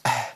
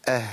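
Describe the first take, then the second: First: "اه" ending in bare breath, the h lost; wrong hidden ha. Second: "اه" with an audible h sound running on after the vowel; correct still ha. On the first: Teacher warning against a lost ha, "اه" with only breath. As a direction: let the h of "اه" vanish into empty breath. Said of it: "ما ينفعش اقول اه". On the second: Teacher demonstrating ha with sukun, "اه" with its sound running. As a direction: let the h in "اه" flow on clearly. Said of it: "سامعين الصوت اللي جري؟". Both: Shown as a demonstration.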